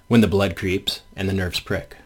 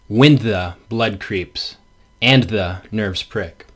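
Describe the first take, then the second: First: The words 'when the' and 'and the' are unstressed. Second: The words 'when the' and 'and the' are stressed. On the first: "But of course we read it" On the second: "And the stress is on when the and the"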